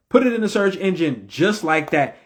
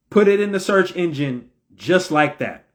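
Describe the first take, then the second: No difference in how they are said.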